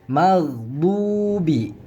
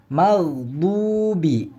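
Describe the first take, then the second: No difference in how they are said.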